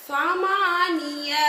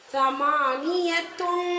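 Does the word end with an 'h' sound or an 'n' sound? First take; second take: h sound; n sound. First: The word ends softly with an 'h' sound. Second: The word ends with a 't' and 'n' sound.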